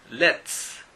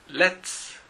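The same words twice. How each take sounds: Both takes have the same delivery.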